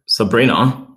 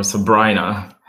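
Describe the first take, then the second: First: Sabrina said sa-BREE-na with an EE; name pronounced. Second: Sabrina said sa-BRY-na with a long I; other pronunciation. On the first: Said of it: "yes, you got it right". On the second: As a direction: offer Sabrina as sa-BRY-na instead. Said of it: "Which one is it?". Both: Shown as a demonstration.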